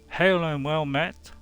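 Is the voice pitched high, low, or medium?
medium. The voice is pitched at a medium level. "the middle one B"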